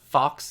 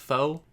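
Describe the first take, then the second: First: The word ends with a clear ks sound. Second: The word ends on a vowel, no ks sound. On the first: The speaker calls it wrong. "You're not supposed to pronounce the X right. ... it's not fox" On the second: The speaker calls it right. "it's foe"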